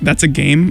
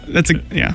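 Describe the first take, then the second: First: The voice rises at the end like a question. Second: The voice falls at the end like a statement. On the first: It asks whether something is a game. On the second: It declares that something is a game.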